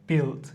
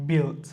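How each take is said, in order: The two takes are said the same way.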